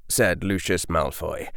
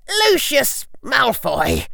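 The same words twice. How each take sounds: First: Said in the usual way. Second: Slow, high icy call; cold firm voice. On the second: A narrator's reading. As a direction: ring out like ice. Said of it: "an icy voice rang out".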